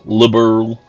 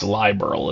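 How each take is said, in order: First: It is said with a Southern American accent. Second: It is said with a German-style pronunciation. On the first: The speaker calls it wrong. "like a you know fat Southerner that I am" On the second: The speaker calls it right. "It's supposed to be German liberal"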